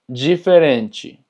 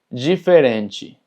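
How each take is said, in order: The two takes are said the same way.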